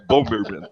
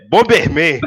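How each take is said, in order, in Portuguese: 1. É falada com um sotaque inglês fluente. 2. É falada com sotaque do português brasileiro. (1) "Não é Bomberman" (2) "É Bomberman, entendeu?"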